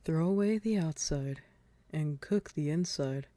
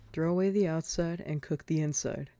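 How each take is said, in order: First: It is read slowly. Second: It is read at a normal speed.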